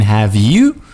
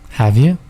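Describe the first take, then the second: First: The word 'you' is said in full. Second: The word 'you' is reduced to 'ya'. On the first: The speaker calls it wrong. "We're not saying have you" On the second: The speaker calls it right. "reduce it"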